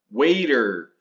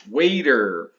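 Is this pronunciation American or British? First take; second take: American; American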